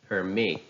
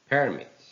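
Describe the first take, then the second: First: "Permit" with weak first syllable, loud falling MIT; stress on second syllable. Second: "Permit" with high, loud PER, falling away; stress on first syllable. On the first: Teacher reads verbs for practice, "Permit" stressed on MIT. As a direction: say "Permit" as per-MIT, the verb. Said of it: "second part of the word takes". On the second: Teacher reads nouns for practice, "Permit" stressed on PER. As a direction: say "Permit" as PER-mit, the noun. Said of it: "How will they sound if they are noun". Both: Shown as a demonstration.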